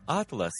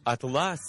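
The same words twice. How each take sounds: First: Атлас with the first А stressed; stress on first syllable. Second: Атлас with ЛАС stressed; stress on second syllable. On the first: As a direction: hit АТ in атлас, the map word. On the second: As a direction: hit the ending ЛАС in атлас, the cloth word. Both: Shown as a demonstration. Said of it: "за допомогою наголосу змінюється своє значення".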